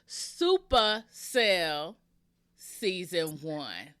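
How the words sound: It is said in a gangster style.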